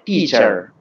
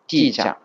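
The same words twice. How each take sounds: First: The final R is pronounced, American style. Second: The final R is dropped, British style.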